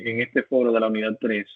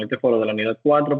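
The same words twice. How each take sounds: First: Said in the usual way. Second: "cuatro" said firmly as the fix; correcting stress on cuatro. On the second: Real, not acted. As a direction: lean into "cuatro" to correct yourself. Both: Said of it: "eh, perdón".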